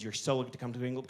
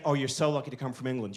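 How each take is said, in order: First: The same lightly American line, softer and rushed; hushed fast American gush. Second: A lightly put-on American accent, lower and gushing; mock American gush. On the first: Retold or imitated. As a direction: rush it in a hushed American accent, like a secret. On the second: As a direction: gush like an impressed American scientist, a hint of the accent. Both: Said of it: "these American scientists kept saying".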